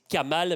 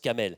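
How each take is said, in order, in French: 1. La dernière voyelle se prononce 'a'. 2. La dernière voyelle se prononce 'e'. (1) "C'est Kamal" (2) "mais ça se prononce Kamel"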